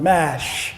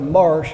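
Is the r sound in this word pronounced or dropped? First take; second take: dropped; pronounced. First: The r sound is dropped, Boston style. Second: The r sound is clearly pronounced.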